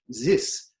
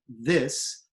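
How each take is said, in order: First: It begins with a z-like sound. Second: It begins with a normal th sound.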